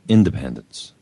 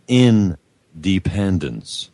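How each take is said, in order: First: It is said smoothly as a single word. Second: It is split into two words, in and dependence. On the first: Being free and self-governing. "not independence" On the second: Remaining in a state of dependence. "they're saying two words"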